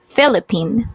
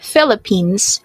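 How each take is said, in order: First: The word ends without an s sound. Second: The word ends with an s sound. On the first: The speaker calls it wrong. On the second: The speaker calls it right.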